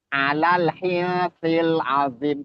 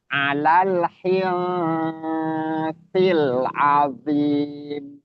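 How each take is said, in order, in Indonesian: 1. Bunyi sengau dipotong pendek dan terburu-buru. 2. Bunyi sengau ditahan lama. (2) "ditahan lagi"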